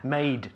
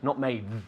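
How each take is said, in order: First: The word ends with a crisp D sound. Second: The word ends with a soft TH-like sound. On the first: The speaker calls it right. "Made, not made, made" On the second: The speaker calls it wrong. "No saques la lengua ... es muy mal esto"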